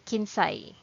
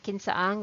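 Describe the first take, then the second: First: It is contracted into one short word. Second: It is said as two full words. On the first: "we'll just say kinsay" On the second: "instead of saying kinsa ang"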